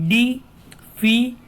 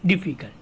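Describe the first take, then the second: First: "difficult" slow, as di - fi - cul - tuh; syllable by syllable. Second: Said in the usual way. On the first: Shown as a demonstration. Teacher breaking down the word, "difficult" slowly syllable by syllable. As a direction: break "difficult" into separate beats with long gaps. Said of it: "Now in this word".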